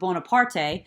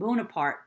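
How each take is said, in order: First: The name is said with an Italian pronunciation. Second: The name is said with a French pronunciation.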